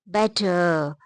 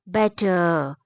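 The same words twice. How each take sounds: No difference in how they are said.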